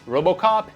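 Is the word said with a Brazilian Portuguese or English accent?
English. It is said with an English accent. "In English"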